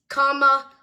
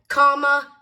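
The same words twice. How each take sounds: The two takes are said the same way.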